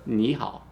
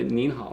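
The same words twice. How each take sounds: First: "ni hao" with open "ni", no n before "hao"; contrasting plain "ni hao"; no final n. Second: "nin hao" with a clear n closing "nin"; "nin hao", n clearly heard; stressed final n. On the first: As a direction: leave "ni" open, straight into "hao". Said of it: "and not the". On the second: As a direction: sound the n before "hao". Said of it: "stress this n at the end". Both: Shown as a demonstration.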